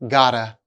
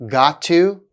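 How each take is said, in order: First: The words are blended into a reduced form. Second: Both words are said fully and separately.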